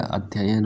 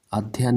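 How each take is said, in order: First: अध्ययन as slow "adh-ya-yan"; correct full form. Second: अध्ययन as "adh-yan"; wrong shortened form. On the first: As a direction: give अध्ययन both ya syllables, slowly. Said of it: "होता है". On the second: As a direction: squeeze अध्ययन into two syllables. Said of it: "नहीं होता है". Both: Shown as a demonstration.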